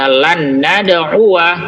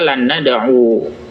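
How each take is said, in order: First: The verb ends with a short a vowel. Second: The verb ends without a final a vowel. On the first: The speaker calls it right. "Makanya dibaca lan nad'uwa" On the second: The speaker calls it wrong. "bukan dibaca lan nad'u"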